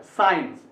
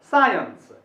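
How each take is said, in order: First: साइंस run together as "sains"; single syllable. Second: साइंस as SAA-yuns, सा raised; two syllables stressed. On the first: Teacher quoting the mistake, "sains". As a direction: say साइंस without holding सा. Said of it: "इसको साइंस नहीं बोल". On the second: Teacher correcting the word, first-syllable stress. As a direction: lean on सा, then a separate यंस. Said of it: "पढ़ना है". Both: Shown as a demonstration.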